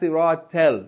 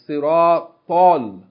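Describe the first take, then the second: First: The t is a plain, light t sound. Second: The t is a heavy, emphatic t sound. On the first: The speaker calls it wrong. "It's not siratal. It's not ta" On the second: The speaker calls it right. "It's siratal"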